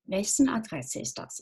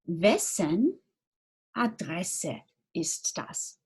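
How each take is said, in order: First: Said in the usual way. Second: Slow, careful, word by word; "wessen Adresse ist das" drawn out with each word apart; slow model question. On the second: Shown as a demonstration. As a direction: spell it out slowly for learners. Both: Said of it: "unsere Frage wäre".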